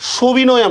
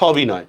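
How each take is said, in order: First: The first vowel is closed, like o. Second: The first vowel is open, like aw. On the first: The speaker calls it wrong. "সবিনয় আমরা বলবো না" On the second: The speaker calls it right. "এটা কিন্তু বিবৃত রয়ে যাবে"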